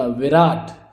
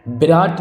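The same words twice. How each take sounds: First: विराट said "viraat"; correct v opening. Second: विराट said "biraat"; mistaken b opening. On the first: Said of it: "विराट होता है". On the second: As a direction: start विराट on b instead of v. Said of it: "विराट नहीं होता". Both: Shown as a demonstration.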